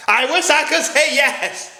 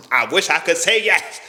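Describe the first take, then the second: First: Higher, slow, drawn out with regret; mock-tragic lament. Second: Said in the usual way. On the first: Shown as a demonstration. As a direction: stretch it like a sad confession. Repeats the line for effect.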